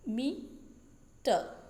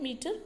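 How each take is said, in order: First: "मीटर" very slowly as two separate syllables; split into syllables. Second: Said in the usual way. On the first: Shown as a demonstration. Teacher showing students the two syllables in "मीटर", split apart slowly. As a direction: break "मीटर" after मी, with a long gap before टर. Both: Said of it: "इसमें दो syllable है".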